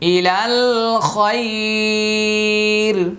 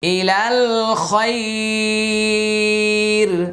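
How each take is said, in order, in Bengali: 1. থেমে যায়, আগের স্বরটি দীর্ঘ করে। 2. থেমে যায়, আগের স্বরটি দীর্ঘ করে।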